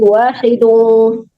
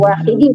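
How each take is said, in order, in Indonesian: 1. Kata itu berakhir dengan bunyi 'un'. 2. Kata itu berakhir dengan bunyi 'in'. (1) "tapi wahidung" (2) "bukan wahidin"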